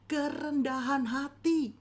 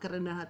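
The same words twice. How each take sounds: First: It is said with strong emphasis and lively intonation. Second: It is said flatly, without special emphasis. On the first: "tapi intonasinya, penekanannya" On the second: "Kata-katanya sama"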